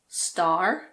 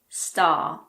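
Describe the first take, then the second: First: The final R sound is clearly pronounced. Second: The final R sound is silent. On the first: "In American English" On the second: "in British English"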